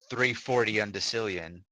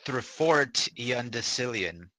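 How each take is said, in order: First: The name is said quickly, running together. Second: The name is said at a normal pace.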